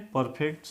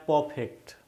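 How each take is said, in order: First: Said in the usual way. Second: परफेक्ट with the R dropped, "puh-fekt"; silent R. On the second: Shown as a demonstration. (परफेक्ट में आर का उच्चारण किए बिना, "पफेक्ट") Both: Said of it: "आर को आपको नहीं पढ़ना है".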